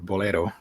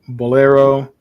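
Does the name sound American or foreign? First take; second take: foreign; American. First: The name is said with a non-American pronunciation. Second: The name is said with an American pronunciation. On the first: The speaker calls it right. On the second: The speaker calls it wrong.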